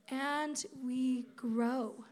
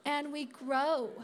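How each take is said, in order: First: Slow. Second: Emphatic. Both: Real, not acted.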